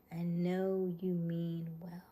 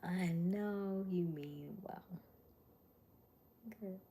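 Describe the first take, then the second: First: Said in the usual way. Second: Slow unvoiced whisper. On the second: Shown as a demonstration. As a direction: breathe it slowly without voice. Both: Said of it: "repeated whispered".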